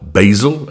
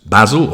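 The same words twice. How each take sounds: First: Basil is said with an American accent. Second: Basil is said with a British accent.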